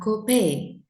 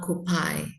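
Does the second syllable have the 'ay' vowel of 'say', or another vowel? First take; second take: ay vowel; other vowel. First: The second syllable has the 'ay' vowel. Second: The second syllable has a different vowel. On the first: The speaker calls it right. "So you have copay" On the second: The speaker calls it wrong. "not copay"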